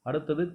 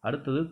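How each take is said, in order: Both takes have the same delivery.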